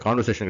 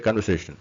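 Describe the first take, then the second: First: கான்வர்சேஷன் with a long open "kaan"; wrong long vowel. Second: கன்வர்சேஷன் with a short "kun"; correct short vowel. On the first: Teacher shows learners what to avoid, long first vowel. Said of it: "கிடையாது". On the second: Teacher corrects the word for learners, short first vowel. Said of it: "கான்வர்சேஷன் கிடையாது". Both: Shown as a demonstration.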